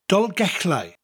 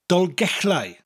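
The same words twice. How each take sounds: Both takes have the same delivery.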